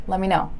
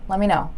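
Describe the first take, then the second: No difference in how they are said.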